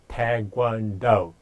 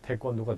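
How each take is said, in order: First: It is said with an English accent. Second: It is said with a Korean accent.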